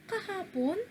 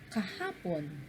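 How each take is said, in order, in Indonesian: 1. Nada naik tinggi pada suku kata terakhir. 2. Nada turun rendah pada suku kata terakhir. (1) "Tumutukoy sa patanong... At yung pon, tatlo, ibig sabihin pataas ang ating tono" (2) "ibig sabihin nagsasalaysay... At yung pon, tumutukoy sa bilang isa na mababa"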